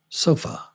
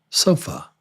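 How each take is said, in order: The two takes are said the same way.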